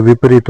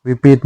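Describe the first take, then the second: First: विपरीत with a clear r; correct form. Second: विपरीत said as "vipeet"; wrong form. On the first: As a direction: say विपरीत as "vipareet". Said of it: "होता है". (विपरीत में स्पष्ट री) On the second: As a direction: drop the r from विपरीत. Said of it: "नहीं होता है". (विपरीत में र नहीं) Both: Shown as a demonstration.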